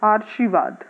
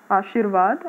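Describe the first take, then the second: First: आर्शीवाद with the r before शी, read as written; wrong-spelling reading with r before shi; आर्शीवाद as misspelt. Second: Said in the usual way. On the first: Shown as a demonstration. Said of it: "इसको pronounce करेंगे तो क्या होगा". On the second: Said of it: "अगर हम लोग इसको बोल के देखेंगे".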